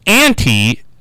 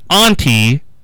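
First: Auntie is said with an American pronunciation. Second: Auntie is said with a British pronunciation. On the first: "So auntie is in the U.S" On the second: "and auntie is in the British"

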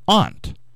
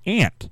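First: The vowel differs from the insect word 'ant'. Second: It sounds like the insect word 'ant'. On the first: The speaker calls it right. "It has to be aunt" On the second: The speaker calls it wrong. "How could you pronounce that ant?"

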